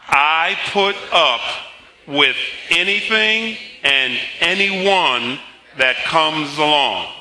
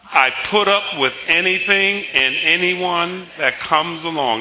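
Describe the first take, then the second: First: It is spoken slowly. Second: It is spoken at a normal pace.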